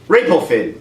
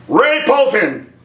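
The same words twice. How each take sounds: First: Said in the usual way. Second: "Rey Poe Finn" slow, higher, each name weighted; mocking emphasis. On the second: Shown as a demonstration. Mocking combined names.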